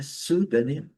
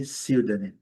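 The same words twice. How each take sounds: First: "pseudônimo" as SU-da-nim, raised; diferencinha. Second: "pseudônimo" as SIU-da-nim; outra variante. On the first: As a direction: say "pseudônimo" with "su" at the start, higher. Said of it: "Aqui uma diferencinha". ("pseudônimo" mais agudo, soando "su-danim") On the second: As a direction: say "pseudônimo" with a "siu" glide at the start. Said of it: "diferença mínima". ("pseudônimo" soando "siú-danim") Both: Shown as a demonstration.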